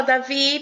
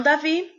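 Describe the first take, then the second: First: Said in the usual way. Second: "Davi?" with a high rising question tune on the last syllable; teacher asking Davi a question; questioning rise. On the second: Shown as a demonstration. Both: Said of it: "usa aí o ponto de interrogação até na entonação".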